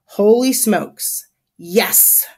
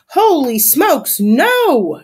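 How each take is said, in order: First: Slow, measured echo; deliberate confirmation. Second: High, loud, drawn-out exclamation; horrified shout. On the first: Narrator confirms the disaster to listeners, deliberate confirmation. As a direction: draw out "Holy smokes", then settle on "yes". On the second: Landlady Crisp watches disaster coming, horrified shout. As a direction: stretch it into a dismayed yell. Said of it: "shouts Landlady Crisp". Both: A narrator's reading.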